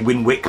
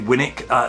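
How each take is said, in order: First: The middle w sound is clearly pronounced. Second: The middle w sound is left out. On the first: This is how some other people say it. "some people might say Winwick Mum" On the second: This is how the speaker says it, northern style. "I say Winnick"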